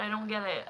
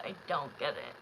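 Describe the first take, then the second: First: Said in the usual way. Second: I don't get it dropped low and soft, to herself; softer, lower echo of the complaint; quiet, low repeat. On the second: Real, not acted. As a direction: mutter it again, deflated. Repeats complaint, then drops.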